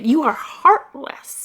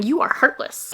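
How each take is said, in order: First: You drawn out slowly, pointed at the viewer; slow accusing repeat. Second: Said in the usual way. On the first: Shown as a demonstration. Teasing viewers who didn't cry, slow and pointed. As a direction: tell dry-eyed readers they are heartless, slowly.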